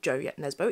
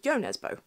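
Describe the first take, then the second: First: The first name starts with a J sound. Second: The first name starts with a Y sound. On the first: The speaker calls it wrong. "It's not" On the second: The speaker calls it right.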